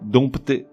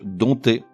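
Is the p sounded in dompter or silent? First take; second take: sounded; silent. First: The p is sounded before the t. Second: The p is silent before the t. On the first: The speaker calls it wrong. "le mot est piégeux puisqu'il s'écrit avec un P" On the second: The speaker calls it right. "ce P ne se prononce pas, il est muet. On dit donc dompter"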